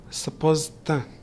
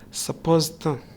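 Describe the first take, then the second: First: The d drops and 'to' becomes 'tha'. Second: The same.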